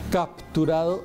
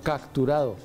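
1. Un sonido p va antes de la t. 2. Un sonido k va antes de la t. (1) "no dicen capturado" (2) "sino capturado"

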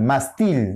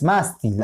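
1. El acento está en la segunda sílaba. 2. El acento está en la primera sílaba. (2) "es mástil, aquí, ¿no? En esta más"

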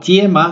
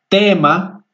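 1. La t se suaviza con una y. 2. La t es dura, sin y. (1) "no tiema" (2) "no, tema"

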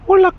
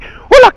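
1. El saludo se dice suavemente, sin fuerza. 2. El saludo se dice con fuerza y de forma autoritaria. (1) "Mickey Mouse no habla así" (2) "es muy imperativo al hablar"

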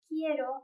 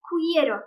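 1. k'dan sonra hiçbir 'u' sesi duyulmuyor. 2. k'dan sonra bir 'u' sesi duyuluyor. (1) "U'yu telaffuz etmemen lazım" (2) "En çok gördüğüm telaffuz hatalarından bir tanesi"

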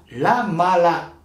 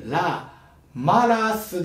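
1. 語末の s の音は脱落します。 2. 語末の s の音は発音されます。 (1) "語尾のS は抜けるというアンダルシア弁の特徴" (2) "語尾のS は抜ける"

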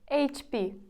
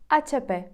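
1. Вимовляється з українськими звуками. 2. Вимовляється з іспанськими звуками.

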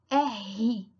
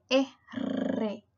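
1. La R es un sonido gutural, como la J. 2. La R es un sonido fuerte y vibrante. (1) "se pronuncia R con el sonido de la J" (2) "tiene un sonido muy fuerte de R"

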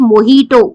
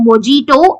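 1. మధ్య హల్లు h ధ్వని. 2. మధ్య హల్లు j ధ్వని. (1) "ఇట్స్ మొహీటో. ... స్పానిష్ జేని హెచ్ గా ప్రొనౌన్స్ చేస్తారు" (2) "ఇట్స్ నాట్ మొజీటో"

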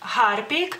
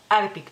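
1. La H inicial se pronuncia. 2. La H inicial se omite. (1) "en lituano diríamos Harpic" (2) "mucha gente tiende a quitar la H"

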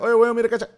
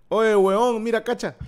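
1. La frase se dice rápido. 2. La frase se dice a ritmo normal.

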